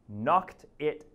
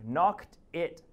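Both takes have the same delivery.

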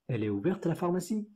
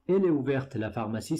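First: It is said as a question, rising. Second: It is said as a statement, falling.

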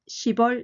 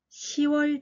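First: A p sound closes the first syllable. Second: No consonant closes the first syllable. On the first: It sounds accented or mistaken. The speaker calls it wrong. "なまって聞こえたり、間違って聞こえます" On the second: It is the clean standard form. The speaker calls it right. "パッチンを落として"

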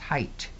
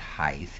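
First: The word ends with a t sound. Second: The word ends with a th sound. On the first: The speaker calls it right. "it's height. It ends with a T" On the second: The speaker calls it wrong. "It's not height"

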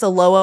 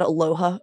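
First: The middle H sound is left out. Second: The middle H sound is clearly pronounced. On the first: The speaker calls it right. "no H sound" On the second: The speaker calls it wrong. "not aloha"

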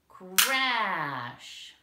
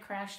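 First: The word is said loudly and with excitement. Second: The word is said quietly and softly. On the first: The speaker calls it right. "No, it's gonna be crash" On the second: The speaker calls it wrong. "Is it gonna be like that really softly?"

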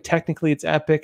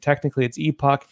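First: It is said the American way, like 'epic'. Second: It is said the British way, 'ee-pock'.

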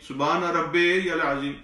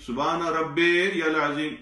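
Both takes have the same delivery.

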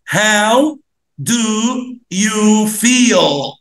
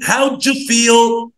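First: Do and you are said as separate words. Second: Do and you blend into a j sound. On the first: The speaker calls it wrong. "بس مش هننطق كده" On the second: The speaker calls it right. "دو يو دي بنقولها ج ج"

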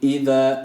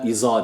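First: The middle consonant is a lisped, th-like sound. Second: The middle consonant is a plain z sound. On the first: The speaker calls it right. "peltekde bir elif" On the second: The speaker calls it wrong. "iza değil"

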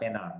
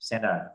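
First: The t sound in the middle is dropped. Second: The t sound in the middle is pronounced.

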